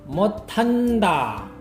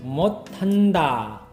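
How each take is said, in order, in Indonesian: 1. Konsonan tengah terdengar seperti t. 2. Konsonan tengah terdengar seperti t.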